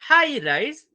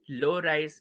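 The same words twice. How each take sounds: First: Pitched up high. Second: Dropped low in pitch. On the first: Student reciting the intonation subtypes, voice high. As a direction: lift the voice high for the high one. Names high rise, voice goes high. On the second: Student reciting the intonation subtypes, voice low. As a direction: sink the voice for the low one. Names low rise, voice drops. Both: Shown as a demonstration.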